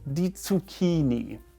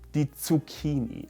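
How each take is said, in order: Both takes have the same delivery.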